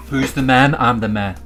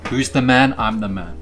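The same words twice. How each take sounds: The two takes are said the same way.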